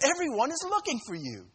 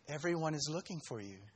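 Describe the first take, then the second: First: It is said in an exasperated, reproachful tone. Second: It is said in a calm, plain tone. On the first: It scolds him for having gone away alone. The speaker calls it right. "I think the tone was, ... Where have you been? We've been trying to find you" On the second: It is a simple report of the news. The speaker calls it wrong. "I don't think it was"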